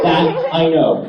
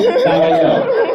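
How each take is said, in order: First: Said in the usual way. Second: High-pitched mock certainty; squeaky high. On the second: Shown as a demonstration. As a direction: jump way up high, drawn out.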